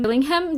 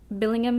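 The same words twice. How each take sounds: First: "Billingham" with a clearly voiced H in "-ham"; "Billingham" as a questioning try, H put in; H sounded. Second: "Billingham" with the H silent, ending in a quick "-um"; "Billingham" as a questioning try, H left out; H dropped. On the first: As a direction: say "Billingham" higher, pronouncing the H. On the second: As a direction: say "Billingham" without sounding the H. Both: Shown as a demonstration. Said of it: "Do you say the H?".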